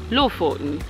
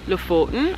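First: The stress falls on the first syllable. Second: The stress falls on the second syllable. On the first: The speaker calls it right. "I need to say Lofoten. So I need to just move that emphasis to the beginning of the word" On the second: The speaker calls it wrong. "instead of saying Lofoten"

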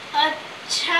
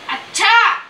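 First: It is drawn out, thoughtful and musing. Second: It is said sharply, in anger.

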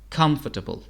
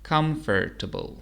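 First: It is said with a British accent. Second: It is said with an American accent.

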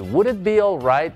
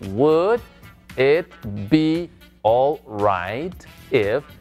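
First: It is said fast. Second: It is said slowly.

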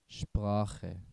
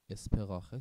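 First: The word begins with a sh sound. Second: The word begins with a plain s sound. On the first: The speaker calls it right. "مثلا شپراخه" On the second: The speaker calls it wrong. "اسپراخه چرا نشد؟"

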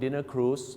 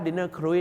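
First: Cruise has a plain long oo vowel. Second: Cruise has an oo vowel gliding to ee. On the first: A dinner boat trip on the river. The speaker calls it right. "ต้องออกเสียงว่า" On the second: Scavenging for food in the garbage. The speaker calls it wrong. "แต่ถ้า dinner cruise เนี่ยน่าจะเป็นการหาของกินตามขยะ"

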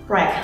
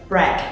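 Both takes have the same delivery.

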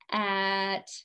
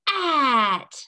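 First: It is said in a flat robot voice. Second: It is said in a big giant voice. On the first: "let's say it in our robot voice" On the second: "Say it in your big voice"

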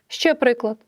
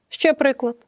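No difference in how they are said.

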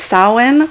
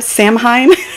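First: The word sounds like 'sow-in'. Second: The word sounds like 'sam-hain'. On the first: The speaker calls it right. "giving me the proper pronunciation" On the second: The speaker calls it wrong. "how I've always read it in my head"

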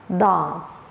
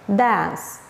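First: British accent, with a long open 'ah' vowel. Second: American accent, with the short vowel as in cat.

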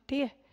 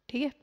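The two takes are said the same way.

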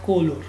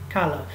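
First: The first syllable has a full 'o' vowel. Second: The first syllable sounds like 'ka'. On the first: The speaker calls it wrong. "not color" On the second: The speaker calls it right. "We say ka"

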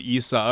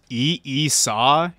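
First: The opening E sound is said once. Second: The opening E sound is said twice. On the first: The speaker calls it right. "Not even the double E's" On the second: The speaker calls it wrong. "double E-Saw"

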